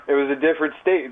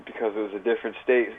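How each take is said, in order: First: "It was a different state" said higher and louder, leaning on "state"; insistent restatement with a falling "state"; emphatic repeat. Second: Said in the usual way. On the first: Shown as a demonstration. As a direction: hammer home "state" the second time, raised and louder.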